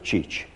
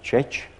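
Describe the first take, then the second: First: The word has a high front vowel, i. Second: The word has an unrounded mid vowel, e. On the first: This is the Székely form. "a székelyek úgy mondták" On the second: This is the Palóc form. "a palócok úgy mondták"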